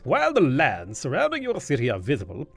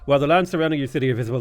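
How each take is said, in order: First: It is read in a silly, pompous put-on voice. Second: It is read in a plain, ordinary voice. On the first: "If I if I do a silly voice" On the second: "if I just sat here, it's like"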